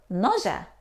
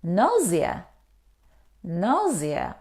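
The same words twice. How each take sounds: First: Nausea said "NAW-zhuh". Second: Nausea said "NAW-zee-uh". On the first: Teacher giving learners the alternative, nausea as "NAW-zhuh". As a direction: say nausea in two syllables with a soft zh. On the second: Teacher correcting learners, nausea as "NAW-zee-uh". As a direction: say nausea in three syllables with a z. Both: Shown as a demonstration. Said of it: "We pronounce".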